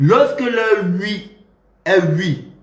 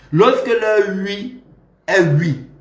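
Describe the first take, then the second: No difference in how they are said.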